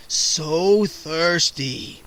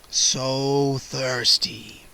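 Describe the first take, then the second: First: Murmured. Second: Very slow, lower hungry vampire whisper. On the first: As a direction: draw it out like a starving vampire. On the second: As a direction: breathe it out at her throat. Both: A narrator's reading. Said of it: "he murmured".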